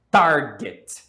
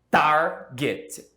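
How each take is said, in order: First: "Target" as one word, TAR punched loud; stress on first syllable. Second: "Target" pulled apart as TAR, pause, get; stressed first syllable, split. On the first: Teacher giving students an example, "Target" with loud first syllable. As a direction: hit the start of "Target" hard, then let get fall. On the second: Teacher showing students the stress, "Target" split in two beats. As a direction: stretch TAR in "Target", then a separate get. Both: Shown as a demonstration. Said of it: "A tônica está no começo".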